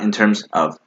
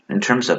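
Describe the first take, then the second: First: The words are said separately with small breaks. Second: The words run smoothly together without breaks. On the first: The speaker calls it wrong. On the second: The speaker calls it right. "you need linking"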